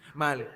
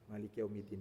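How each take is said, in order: First: The phrase is cut short and its ending swallowed. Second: The phrase is said quickly with its ending clearly audible. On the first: The speaker calls it wrong. "Mana dinnya dia?" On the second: The speaker calls it right. "Dan ujungnya harus kedengaran"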